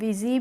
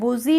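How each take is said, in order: First: The first vowel sounds like 'i'. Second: The first vowel sounds like 'u'. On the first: The speaker calls it right. "इसको हम पढ़ते हैं विजी" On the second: The speaker calls it wrong. "बुजी नहीं पढ़ते हैं"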